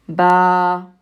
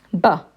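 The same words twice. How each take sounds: First: Ba with a long, held a, like baa. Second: Ba with a quick, short a. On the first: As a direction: draw out the a in Ba. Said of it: "a ba with an alif after it". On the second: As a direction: clip the a in Ba short. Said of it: "if I have the letter ba and I put a fatha on it". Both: Shown as a demonstration.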